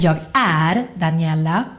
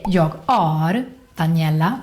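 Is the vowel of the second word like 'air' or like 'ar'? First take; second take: air; ar. First: The second word has an open 'air' vowel. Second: The second word has a back 'ah' vowel. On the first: It says I am Daniela. The speaker calls it right. "instead of" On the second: It says the speaker is a unit of measure. The speaker calls it wrong. "it sounds like you're saying I, and then this way of measuring things"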